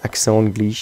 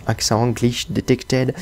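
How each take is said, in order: First: Said in the usual way. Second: French words put on with a slow English accent; hammed-up English accent, drawn out. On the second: Shown as a demonstration. (accent anglais exagéré et lent) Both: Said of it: "Avec l'accent anglais".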